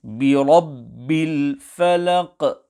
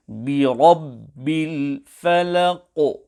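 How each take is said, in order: First: "الْفَلَقِ" ending in a bounced but thin Qaf; Qaf not full mouth. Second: "الْفَلَقِ" ending in a heavy, rounded, bounced Qaf; full-mouth Qaf with qalqalah. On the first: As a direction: end "الْفَلَقِ" on a light "qeh" echo, not rounded. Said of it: "Qaf has not been pronounced full mouth". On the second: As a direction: fill the mouth on the last letter of "الْفَلَقِ" and bounce it. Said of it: "pronounced both with qalqalah and also full mouth". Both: Shown as a demonstration.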